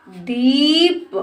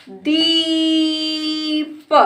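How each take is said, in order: First: दीप joined, shorter rising ee; blended word. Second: दीप with very long level दी, then प; sounded out. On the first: Teacher blends the word for a child, joined up. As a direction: run दीप into one word. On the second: Teacher sounds out the word for a child, stretched. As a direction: stretch दीप apart slowly. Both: Shown as a demonstration. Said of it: "इस तरह से बेटा हम शब्दों को".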